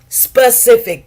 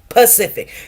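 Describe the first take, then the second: First: The word begins with an s sound. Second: The word begins with a p sound. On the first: The speaker calls it right. "They do not say specific" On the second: The speaker calls it wrong. "They say Pacific"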